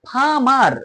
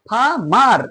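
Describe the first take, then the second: Both takes have the same delivery.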